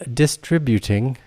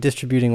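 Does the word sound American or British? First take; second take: British; American. First: It is said in a British-sounding accent. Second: It is said in a plain American accent.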